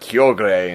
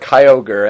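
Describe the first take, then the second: First: The name is said in a Japanese-style pronunciation. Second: The name is said in an American-style pronunciation. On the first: "that's I guess the Japanese one" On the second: "I always called it Kyogre"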